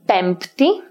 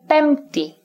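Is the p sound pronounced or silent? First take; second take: pronounced; silent. First: The p sound is pronounced. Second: The p sound is silent. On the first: "usually in formal speech, pronounce it" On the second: "while others say"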